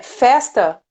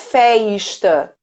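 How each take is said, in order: First: The S is a plain hissing s sound. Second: The S is a hushing sh sound. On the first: The speaker calls it right. "a maior parte é o S" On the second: The speaker calls it wrong. "festa não é feista"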